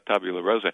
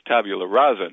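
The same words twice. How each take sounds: First: The second word is said as 'rosa'. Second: The second word is said as 'rasa'. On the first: It means a pink slate. The speaker calls it wrong. "not tabula rasa" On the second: It means a blank slate. The speaker calls it right. "the phrase is tabula rasa"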